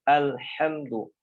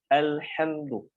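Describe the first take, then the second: No difference in how they are said.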